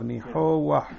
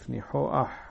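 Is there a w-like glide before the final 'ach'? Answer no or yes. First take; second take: yes; no. First: A w-like glide comes before the final vowel. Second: No glide comes before the final vowel. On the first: "כי בעצם יש פה וו" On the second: "או אצל האשכנזים אומרים א'"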